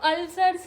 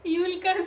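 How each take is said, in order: First: The word starts with a short 'ul' sound. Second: The word starts with a 'yool' sound. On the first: The speaker calls it right. "अल्सर्स है" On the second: The speaker calls it wrong. "यूल कर्ज नहीं है वो"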